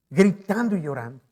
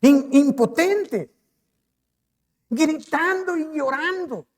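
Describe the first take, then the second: First: Said in the usual way. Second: Anguished preaching. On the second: Acted. Preacher dwelling on David's grief.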